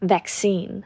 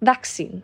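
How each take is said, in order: First: It is said in an American accent. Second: It is said in a British accent. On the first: "ถ้าเป็นคนฝรั่งหรือคนอเมริกันจะออกว่า, vaccine เป็นสระแอนะคะ" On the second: "แต่ถ้าเป็นคนอังกฤษเนี่ยจะออกเสียงว่า"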